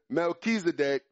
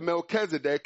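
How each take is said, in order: First: The name is said in its Hebrew form. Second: The name is said in its Greek form. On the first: This is the form found in Genesis. "the Melchizedek is the Hebrew" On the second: This is the form found in the New Testament. "the Melchizedek is the Greek"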